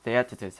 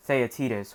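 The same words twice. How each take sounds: First: Theaetetus said thee-ET-uh-tus; alternative pronunciation. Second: Theaetetus said thay-uh-TEE-tus; alternative pronunciation. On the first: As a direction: say Theaetetus with a short "e" in the stressed second syllable. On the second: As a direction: say Theaetetus with a long "ee" in the stressed third syllable. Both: Shown as a demonstration. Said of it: "however you would wanna pronounce it".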